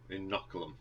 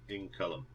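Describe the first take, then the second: First: Said in the usual way. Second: Inoculum slipped to "in-CULUM", missing a syllable; mispronounced Inoculum. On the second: Real, not acted. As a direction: say Inoculum short, dropping the "noc" syllable.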